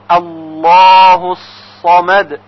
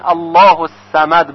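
First: The s in samad is heavy and emphatic. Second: The s in samad is light and plain. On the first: The speaker calls it right. "صمد با صاد باید تلفظ بشه" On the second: The speaker calls it wrong. "با سین غلط هست"

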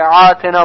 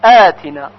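First: It begins with a tight throaty ayn sound. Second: It begins with a light glottal stop. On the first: The speaker calls it wrong. "با عین غلط هست" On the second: The speaker calls it right. "در کلمه آتنا باید همزه تلفظ بشه"

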